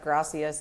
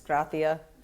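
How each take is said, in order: First: The middle consonant is a plain s sound. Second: The middle consonant is a th sound. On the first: "it's not gracias" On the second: "it's a lot of ths. Like everything goes to th"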